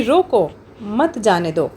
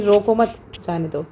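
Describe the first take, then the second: First: Drawn-out रोको, break, then मत जाने दो together; requesting रोको, slow and lifted, then a pause before मत; pause after रोको. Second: Quick रोको मत as one unit, break, falling जाने दो; pause after मत. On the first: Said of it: "यहाँ पर एक रिक्वेस्टिंग वे में". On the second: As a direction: split it after मत, letting जाने दो drop. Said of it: "दो पार्ट्स में डिवाइड कर देखिए". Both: Shown as a demonstration.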